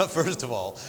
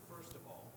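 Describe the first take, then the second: First: "First of all" said louder after a laugh, fully projected. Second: "first of all" said much softer, almost lost; too quiet. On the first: Told to talk louder, she restarts at full volume. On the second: Panelist starts her point too quietly to be heard. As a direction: drop "first of all" away to near nothing. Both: Real, not acted. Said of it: "is talk louder".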